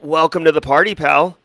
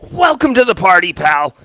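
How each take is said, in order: First: It is said plainly, without much force. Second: It is said forcefully, with strong conviction. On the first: The speaker calls it wrong. "I didn't say that with the with the conviction and gumption of John McClane" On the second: The speaker calls it right. "There we go. That's more legit"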